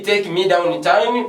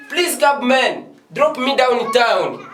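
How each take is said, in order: First: Slow, careful model of the wrong phrase; slow wrong example. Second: Higher, slow showcase phrase with a laugh; model sentence. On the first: Teacher showing students the phrase not to say, slowly. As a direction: drag it out as the phrase to avoid. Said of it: "Don't say". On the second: Teacher proudly modelling the better sentence, high and slow. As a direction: lift it up and stretch it as the good example. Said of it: "That is a good sentence". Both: Shown as a demonstration.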